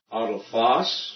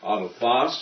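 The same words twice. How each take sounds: First: Autophos said slowly, stress leaned hard on one syllable; teacher slowly stresses the syllable of Autophos; stressed syllable shown. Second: Autophos said again with the same syllable stress; stress repeated. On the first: Greek teacher shows students the stress in Autophos, slowly. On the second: Teacher repeats Autophos for students, stress marked. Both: Shown as a demonstration. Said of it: "I'm showing you this syllable stress".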